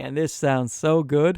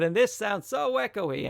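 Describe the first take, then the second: First: Close, present and dry on the mic. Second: Distant and echoey, off mic; far from mic. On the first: Mic reviewer leaning back in to demo clean sound, close dry voice. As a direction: lean right into the mic. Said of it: "move it in right here". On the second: Mic reviewer leaning away to demo echo, distant roomy voice. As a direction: step back from the mic so it rings in the room. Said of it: "move a little further away". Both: Shown as a demonstration.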